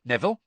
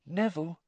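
First: Puzzled call of the name; questioning call. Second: Gentle, higher-pitched name call. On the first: Spotting friend alone, calling him. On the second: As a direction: say the name tenderly to a troubled friend. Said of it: "Hermione said gently". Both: Acted.

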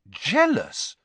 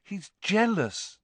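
First: Louder, disbelieving echo; incredulous. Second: Higher, slow and deliberate statement; slow verdict. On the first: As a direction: throw the word back in disbelief. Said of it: "Harry said incredulously". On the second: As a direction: let the word land. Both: A narrator's reading.

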